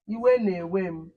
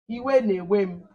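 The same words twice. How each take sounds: First: Iwe na-ewe m said slowly again, iwe stressed; slow model phrase. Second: Iwe na-ewe m said slowly, iwe stressed; slow model phrase. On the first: Teacher repeating iwe na-ewe m slowly for the class. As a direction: drag each word out for the pupils to copy. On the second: Teacher modelling iwe na-ewe m slowly for the class. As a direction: spell it out slowly for the pupils. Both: Shown as a demonstration. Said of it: "How would you say".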